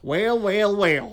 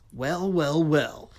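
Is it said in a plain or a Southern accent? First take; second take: Southern; plain. First: It is said in a deep Southern accent. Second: It is said in a plain, neutral accent.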